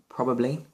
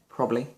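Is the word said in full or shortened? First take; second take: full; shortened. First: All syllables of the word are pronounced. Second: Some sounds are dropped, shortening the word.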